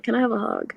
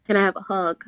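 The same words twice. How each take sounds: First: Mock pleading. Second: Said in the usual way. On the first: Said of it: "Mal's like". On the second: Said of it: "he's just like".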